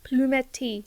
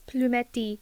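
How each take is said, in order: First: It is pronounced the French way. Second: The same.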